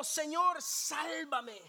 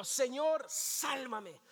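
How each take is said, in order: First: Cry for help. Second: Said in the usual way. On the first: Acted. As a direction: call out for rescue. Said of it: "Entonces gritó". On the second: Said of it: "Diga conmigo".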